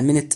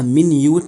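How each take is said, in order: First: It is pronounced like 'minnit'. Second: It is pronounced like 'my-noot'. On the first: It means a unit of time. "لو نطقناها منت يبقى دي دقيقة من بتوع الساعة" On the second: It means very small in size. "لو نطقناها minute فده معناها صغير الحجم"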